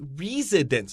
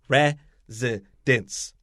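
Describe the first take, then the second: First: The first vowel is a long E sound. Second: The first vowel is a short E sound. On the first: The speaker calls it wrong. "we don't say residence" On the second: The speaker calls it right. "This is a short E"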